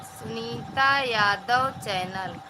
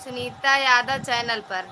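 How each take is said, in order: First: Drawn out so viewers catch the name; slow deliberate repeat of Sunita Yadav channel; slow, spelled-out repeat. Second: Said in the usual way. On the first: Real, not acted. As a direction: say the channel name slowly, word by word. Repeats the channel name slowly.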